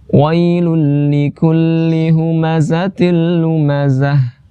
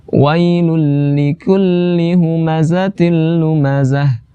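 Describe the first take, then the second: The two takes are said the same way.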